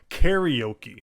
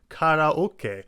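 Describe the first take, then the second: First: The vowels are blended with an English stress pattern. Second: Each vowel is said separately and distinctly. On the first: "unlike in English where it's ... karaoke" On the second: "the Japanese pronunciations"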